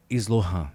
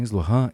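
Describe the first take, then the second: First: "Islohan" low, with a falling end; retold answer. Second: "Islohan" with a rising end; questioning echo. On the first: Client in trance gives his name, "Islohan", low falling answer. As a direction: give "Islohan" as a plain low statement. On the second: Retold or imitated. Therapist checks the client's name, "Islohan", rising questioning echo. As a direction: repeat "Islohan" back louder, as a question.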